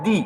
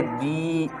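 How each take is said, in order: First: दी with a quick, short ई. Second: दी with the ई drawn out long and soft. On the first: Teacher showing pupils the short ई in दी, said quickly. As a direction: say दी fast, vowel kept short. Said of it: "तो इसको पढ़ेंगे तेजी में". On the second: Teacher showing pupils the long ई in दी, drawn out. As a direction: stretch the ई in दी. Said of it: "लंबी आवाज़ खींचेंगे". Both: Shown as a demonstration.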